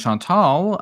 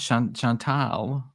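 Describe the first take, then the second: First: Chantal ending like "tall"; usual pronunciation. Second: Chantal drawn out, ending near "tal"; newly heard pronunciation. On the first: Shown as a demonstration. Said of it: "always thought that her name was". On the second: Retold or imitated. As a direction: slowly test Chantal as "shawn... shawn-TAL". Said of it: "that's news to me".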